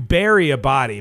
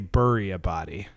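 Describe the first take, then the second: First: Bury is said like Barry. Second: Bury is said like Burry. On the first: The speaker calls it right. "but you bury a body" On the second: The speaker calls it wrong. "you on this podcast say bury a body"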